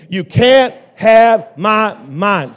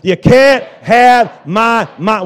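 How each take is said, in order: First: It is said at a normal loudness. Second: It is said even more loudly. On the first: "Say it again" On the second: "A little bit louder"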